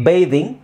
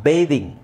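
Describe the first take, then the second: The two takes are said the same way.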